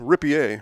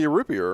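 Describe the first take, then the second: First: The name is pronounced the French way. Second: The name is pronounced the English way.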